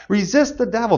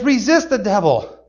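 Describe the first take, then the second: First: Said in the usual way. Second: Resist the devil spoken slowly, leaning on Resist; slow it down and press on Resist; slow scripture emphasis. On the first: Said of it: "what we need to do". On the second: Shown as a demonstration. Preacher quoting James to children, slow and emphatic. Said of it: "It says".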